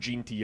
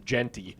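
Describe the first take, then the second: First: The first vowel is an 'ih' sound. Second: The first vowel is an 'eh' sound. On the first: The speaker calls it wrong. "he was saying Ginty a lot last week" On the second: The speaker calls it right. "Drink every time Jacob mispronounces Genty"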